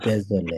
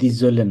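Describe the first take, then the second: First: The first vowel sounds like 'ay'. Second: The first vowel sounds like 'ee'. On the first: The speaker calls it right. "এটা দেজলে" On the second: The speaker calls it wrong. "এটা দিজলে না"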